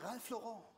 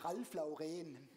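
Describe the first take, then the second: First: The name is said with a French pronunciation. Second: The name is said with a German pronunciation. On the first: "Franzosen sagen" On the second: "Deutsche sagen"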